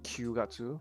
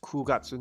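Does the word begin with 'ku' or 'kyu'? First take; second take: kyu; ku. First: The first syllable is a 'kyu' sound. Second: The first syllable is a plain 'ku' sound. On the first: The speaker calls it wrong. "not Kyugatsu" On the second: The speaker calls it right.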